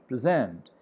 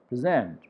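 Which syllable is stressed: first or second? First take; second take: second; second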